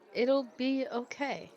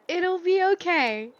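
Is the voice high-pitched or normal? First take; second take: normal; high-pitched. First: It is said in a normal speaking voice. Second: It is said in a very high-pitched voice.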